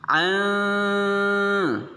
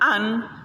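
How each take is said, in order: First: The n is hidden, vague and nasal. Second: The n is pronounced clearly and fully. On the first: The speaker calls it right. "maka cara membacanya samar-samar" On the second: The speaker calls it wrong. "Kalau dibaca an itu jelas, itu terdengar jelas"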